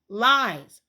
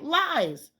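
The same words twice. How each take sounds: First: Louder flat repeat of lies; indignant retort; louder accusation. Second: Said in the usual way. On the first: Real, not acted. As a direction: slam down the word Lies. Calling out the school's story.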